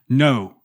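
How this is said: The word is said sharply and harshly. It feels like an attack. "the first no, like a dagger in the heart"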